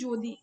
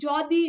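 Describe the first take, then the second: First: The first vowel is a rounded 'oh' sound. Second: The first vowel is an open 'aw' sound. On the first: The speaker calls it wrong. "আমরা বলি যদি ... অয়ের বদলে ও উচ্চারিত হচ্ছে" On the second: The speaker calls it right. "যদি উচ্চারণ না করে"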